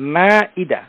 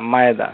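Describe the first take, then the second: First: The vowels are separated by a break. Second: The vowels are joined by a y-glide. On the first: The speaker calls it right. "উচ্চারণ হবে মা ইদা" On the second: The speaker calls it wrong. "এই ধরনের উচ্চারণ আরবিতে নেই, এগুলো উর্দু ভাষা থেকে"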